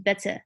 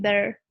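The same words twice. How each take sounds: First: The middle T is pronounced as a full T. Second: The middle T is softened and nearly skipped. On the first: "instead of saying better" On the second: "I'm like kind of like skipping it a little bit"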